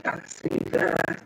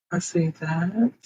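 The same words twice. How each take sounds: First: Breathy whisper, slowed down; whispered aside. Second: Said in the usual way. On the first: Real, not acted. Streamer whispering to herself over her settings. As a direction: murmur it to yourself while reading the screen.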